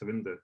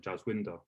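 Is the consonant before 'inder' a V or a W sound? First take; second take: V; W. First: The name is said with a V sound. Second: The name is said with a W sound. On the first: This is how Punjabi speakers say the name. The speaker calls it right. "the name to say it properly would be just Savinder" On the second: This is how someone reading the spelling says it. The speaker calls it wrong. "someone who doesn't know my name might just say, you know, Jaswinder because that's how it's spelled"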